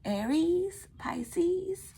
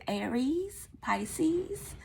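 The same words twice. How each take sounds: First: Aries and Pisces much higher, rising, Pisces breathed out in a whisper; exaggerated Amethyst. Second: Aries and Pisces said higher, rising, stretching the E sounds; high rising imitation of Aries, Pisces; imitating Amethyst. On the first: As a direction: overdo the E emphasis in Aries, Pisces. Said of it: "it's an emphasis on the E's". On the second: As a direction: mimic the tarot reader's long E's in Aries, Pisces. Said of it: "that's the way she says it".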